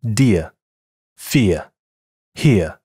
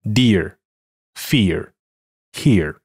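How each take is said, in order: First: British "dear, fear, here" with a non-rhotic ending; no r sound at the end, British style; British English. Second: American "dear, fear, here" with an r-colored ending; American English. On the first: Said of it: "英式英语". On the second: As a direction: curl the tongue for the final r, American style. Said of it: "美式英语". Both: Shown as a demonstration.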